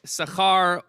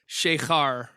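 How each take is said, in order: First: The word begins with a plain s sound. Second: The word begins with an sh sound. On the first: It means reward. "if you read it with a sin" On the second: It means inebriation. "or a shin"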